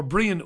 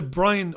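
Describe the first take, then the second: First: Brian with an ee sound; Brian as BREE-an. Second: Brian with a long eye sound; Brian as BRY-an. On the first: Second guess at viewer's name, Brian said BREE-un. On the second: Greeting a viewer, Brian said BRY-un. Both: Real, not acted. Offers two readings of a name.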